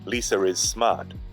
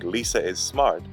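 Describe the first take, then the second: First: An R sound links Lisa to is. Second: No R sound links Lisa to is. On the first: "they would say ... Where's the R there?" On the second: "Instead of saying"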